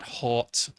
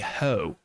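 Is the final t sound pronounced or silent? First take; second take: pronounced; silent. First: The word ends with a clear t sound. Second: The word ends on the vowel, without t. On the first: The speaker calls it wrong. "It's not hot" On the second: The speaker calls it right. "apparently the word should be ho"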